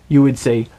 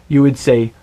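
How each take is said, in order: Both takes have the same delivery.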